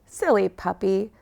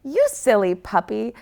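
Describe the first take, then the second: First: Mild scolding tone; a gentle telling-off. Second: Light playful tease; teasing. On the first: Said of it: "scolds Rockstar Merc". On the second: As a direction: gently tease the puppy. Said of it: "teases Eye Patch Echo". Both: Acted.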